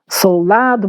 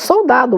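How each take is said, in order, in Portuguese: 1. O L antes do d é um L claro. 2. O L antes do d soa como U. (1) "ainda fala-se" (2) "o L já virou U"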